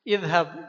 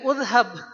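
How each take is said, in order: First: The word begins with an i vowel. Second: The word begins with a u vowel. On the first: The speaker calls it right. "Ini dibacanya idhab" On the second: The speaker calls it wrong. "jangan dibaca udhab"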